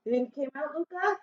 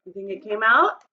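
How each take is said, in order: First: Much softer, higher follow-up question to Luca. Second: Said in the usual way. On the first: Real, not acted. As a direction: lean in and ask again softly. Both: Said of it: "asks the class about the tooth".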